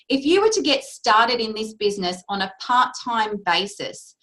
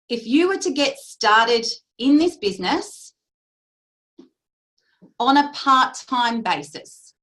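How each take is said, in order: First: It is said at normal speed. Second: It is said more slowly.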